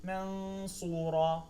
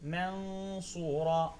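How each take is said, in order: No difference in how they are said.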